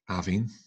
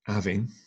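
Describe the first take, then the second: First: The middle consonant is a soft V sound. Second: The middle consonant is a soft V sound.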